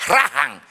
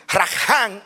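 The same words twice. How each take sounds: First: "rajan" con el acento en la primera sílaba; acento cambiado. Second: "rajan" con el acento en la última sílaba; acento contrastado. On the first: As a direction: stress the first syllable of "rajan". ("rajan" acentuado al principio) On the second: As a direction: stress the second syllable of "rajan". ("rajan" acentuado al final) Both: Shown as a demonstration. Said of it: "solamente cambia el acento".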